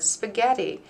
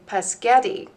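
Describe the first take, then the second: First: The word starts with a clear sp sound. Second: The word starts with p, sounds jumbled. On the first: The speaker calls it right. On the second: The speaker calls it wrong.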